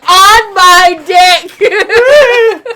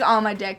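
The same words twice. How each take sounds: First: It is said in a forceful, aggressive way. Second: It is said in a light, joking way.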